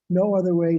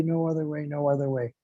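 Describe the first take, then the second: First: First no other way said firmly, at full voice; emphatic repetition. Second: No other way repeated, much softer, like an echo. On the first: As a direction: state it as the strong first call. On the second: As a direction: let the second one fall back and fade. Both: Shown as a demonstration. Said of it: "That's three times Hare Nama".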